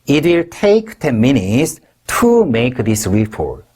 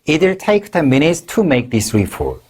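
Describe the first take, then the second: First: The sentence is said slowly. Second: The sentence is said at normal speed.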